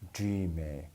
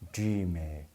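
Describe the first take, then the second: The two takes are said the same way.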